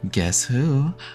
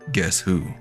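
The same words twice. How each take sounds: First: It is said in a normal voice. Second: It is said in a put-on deep voice.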